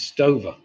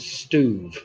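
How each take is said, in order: First: The surname is said as two syllables, Sto-ver. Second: The surname is said as one syllable, Stuve. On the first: This is the older English way of saying it. The speaker calls it wrong. "It used to be pronounced Stover" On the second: This is the way research gives it. The speaker calls it right. "it comes up as Stuve"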